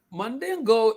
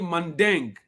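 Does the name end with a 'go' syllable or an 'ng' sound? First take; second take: go syllable; ng sound. First: The name ends with a final 'go' syllable. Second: The name ends with an 'ng' sound. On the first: This is the form used in America. The speaker calls it wrong. "Mandingo is the American pronunciation" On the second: This is the original form of the name. The speaker calls it right. "but it's actually Mandeng"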